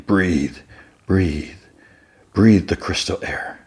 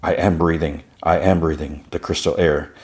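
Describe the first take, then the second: First: Slow, drawn-out mock breathing instruction; on-screen breathing guide. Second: Evenly recited, understated chant-like delivery; retold reciting. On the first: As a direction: lightly imitate a show's calming voice, with pauses. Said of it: "you can hear someone saying". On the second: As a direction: recite it like a memorized mantra, lightly imitated. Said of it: "kind of, like, reciting the".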